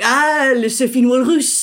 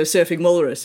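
First: Put-on French-accented "Surfing Walrus", higher pitch; imitated French "ah" of recognition, amused; French barman. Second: Said in the usual way. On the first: Bartender finally understanding the beer order, imitated French accent. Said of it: "he was like". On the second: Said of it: "I just sound stupid saying that".

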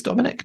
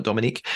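First: Dominic ending in a short "ick"; Dominic, rhyming its end with "pick"; short final vowel. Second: Dominique ending in "eek"; Dominique, rhyming its end with "seek"; long final vowel. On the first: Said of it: "not Dominique". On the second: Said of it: "I think it's Dominic". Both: Shown as a demonstration.

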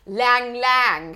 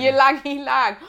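First: Lang Lang, without the opening "ee" sound; unsure mispronunciation. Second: Ylang Ylang as ee-lang ee-lang; corrected pronunciation. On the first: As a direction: say Lang Lang slowly, unsure of the word. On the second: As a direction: say Ylang Ylang with "ee" before each "lang". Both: Shown as a demonstration. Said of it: "How do you say it?".

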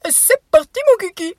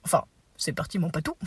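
First: High, loud goofy shout; silly exclamation. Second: Said in the usual way. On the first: Acted. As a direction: yell it like a silly clown. Playful exclaim.

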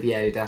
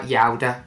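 First: Said in the usual way. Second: Put-on Yoda in a Brummie accent, first vowel widened to "ow"; imitating Brummie-accented Yoda with a wide "ow". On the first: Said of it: "instead of Yoda". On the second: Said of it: "a Brummie accent. So they say".

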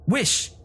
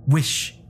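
First: High, sharp command; strong-voiced cry. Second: Firm repeated command. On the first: Wife ordering her frightened husband, strong-voiced. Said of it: "cried in a strong voice". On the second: Wife repeating her order to husband, firmly. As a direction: command pitched moderately up, insistent. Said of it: "repeated his wife". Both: A narrator's reading.

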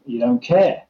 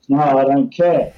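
First: "care" rises at the end of "You don't care" like a gentle question; rising mirror question. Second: "care" falls hard and a touch louder in "No, I don't care"; mock defiant punter. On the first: Shown as a demonstration. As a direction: echo it back with the tune going up on "care". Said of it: "upward, um, inflection at the end of that mirroring". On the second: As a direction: slam "care" down, flat refusal. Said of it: "might come back and goes".

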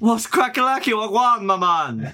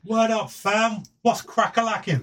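First: High, hammed-up slang greeting; spirit voice. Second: High, mock street slang. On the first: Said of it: "that's your spirit voice". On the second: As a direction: ham up modern slang, pitched high. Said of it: "twenty twenty-three colloquial slang".

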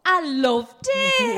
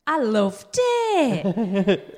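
First: Put-on Northern accent. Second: Put-on slow, drawn-out Northern English accent through a laugh. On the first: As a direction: ham up the Northern accent, high and drawn out. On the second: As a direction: stretch it out in a Northern accent, giggling. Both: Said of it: "Do they have to do it in the Northern accent?".

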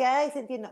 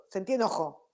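First: High, hammed-up "Ay, sentí eno-" as if alarmed; the wrong way: high, dramatic "Ay, sentí eno-"; dramatic overreaction. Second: Said in the usual way. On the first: Shown as a demonstration. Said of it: "no tampoco es like". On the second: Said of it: "no, uh".

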